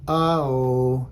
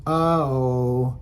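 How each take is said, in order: No difference in how they are said.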